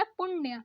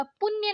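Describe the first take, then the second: First: पुण्य with curled-tongue ण; correct retroflex ण. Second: पुण्य with न instead of ण; wrong dental N. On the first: Teacher correcting learners, retroflex पुण्य. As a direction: curl back for ण in पुण्य. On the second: Teacher showing learners the mistake, dental-N पुण्य. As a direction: say पुण्य as पुन्य. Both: Shown as a demonstration. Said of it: "नहीं होता".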